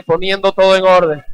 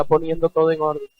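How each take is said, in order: First: Louder, emphatic call to repeat. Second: Said in the usual way. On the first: Shown as a demonstration. Preacher has the congregation repeat the phrase, loud. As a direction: say it out loud for them to echo. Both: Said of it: "Dígalo fuerte".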